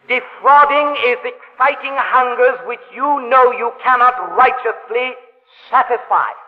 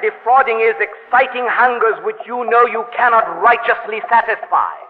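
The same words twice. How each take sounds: First: It is said slowly. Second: It is said at a normal pace.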